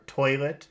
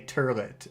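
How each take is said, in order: First: The word is said without an added r sound. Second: The word is said with an added r sound. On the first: "instead of saying tur- toilet" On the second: "they'll say turlet"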